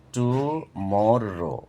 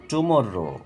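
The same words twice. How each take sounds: First: টুমরো slow as টু, মর, রো; split into syllables. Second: Said in the usual way. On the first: Shown as a demonstration. Teacher showing syllables, টুমরো slowly broken up. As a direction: stretch and separate টুমরো. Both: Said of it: "তিনবারে ভেঙে উচ্চারণ করা হয়".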